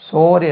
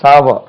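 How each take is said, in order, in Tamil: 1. உயிர் ஒலி 'sore' என்பதில் உள்ள ஒலி போல இருக்கிறது. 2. உயிர் ஒலி 'power' என்பதில் உள்ள ஒலி போல இருக்கிறது. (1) "சோர் என்று உச்சரிக்க கூடாது" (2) "அது sour"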